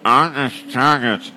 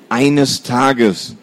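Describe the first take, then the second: First: "eines Tages" through a blocked nose, nasal consonants gone; a brother with a cold threatening his sister, stuffed nose. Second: Growled. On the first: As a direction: say "eines Tages" like your nose is completely clogged. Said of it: "dank seiner vollkommen dichten Nase". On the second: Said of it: "knurrte er". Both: Acted.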